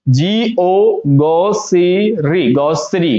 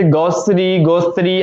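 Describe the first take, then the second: First: "गॉसरी" slowly as go-se-ree; careful, stretched model of "गॉसरी"; correct pronunciation. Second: "गॉसरी, गोस्त्री" run together as a misreading; quick mistaken take on "गॉसरी"; wrong pronunciation. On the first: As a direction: spell g-o, then draw out "गॉसरी" in syllables. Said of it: "तो इसको हम पढ़ेंगे क्या". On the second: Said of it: "लेकिन ये रॉन्ग है". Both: Shown as a demonstration.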